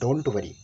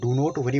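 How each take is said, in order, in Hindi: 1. Do और not एक ही syllable में बोले जाते हैं। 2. Do और not अलग-अलग बोले जाते हैं। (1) "इसको सही से बोलिए डोंट वरी" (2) "इसको डू नॉट वरी मत बोलिए, ये बोलने में अच्छा नहीं लगेगा"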